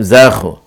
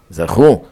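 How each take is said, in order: First: זכו said "ZA-khu", weight up front; זכו front-stressed, as the mistaken readers say it; mistaken stress on first syllable. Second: זכו said "za-KHU", weight at the end; זכו end-stressed, the corrected reading; stress on last syllable. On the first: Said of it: "לא אומרים זכו". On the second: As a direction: land firmly on the final syllable of זכו. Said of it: "זכו מלרע". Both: Shown as a demonstration.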